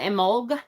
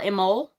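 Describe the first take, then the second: First: It ends with a G sound. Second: It ends with no final consonant. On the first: "with a G" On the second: "it's totally silent. There's no uh, at the end at all"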